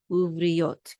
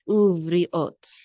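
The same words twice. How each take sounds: First: Uvriot with a y glide into the last syllable, uv-ri-yot; with the yud. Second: Uvriot with ri and ot as separate vowels, no y between; without the yud. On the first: Teacher correcting the syllable break, uvriot with a y glide. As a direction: slip a y before the ot of uvriot. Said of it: "This syllable is with the yud". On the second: Teacher giving a first try before correcting it, uvriot without a y glide. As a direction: say uvriot as uv-ri-ot, firmly. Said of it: "actually with the, with the yud". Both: Shown as a demonstration.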